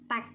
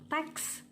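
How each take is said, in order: First: The word ends without an s sound. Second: The word ends with an s sound. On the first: The speaker has little formal education. The speaker calls it wrong. "yang kurang berpendidikan" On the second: The speaker has formal education. The speaker calls it right. "yang berpendidikan formal"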